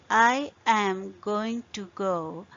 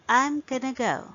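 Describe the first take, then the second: First: Every word is said fully, without reduction. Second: The words are reduced and run together. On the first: "Instead of saying I am going to go" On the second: "you say I'm gonna go"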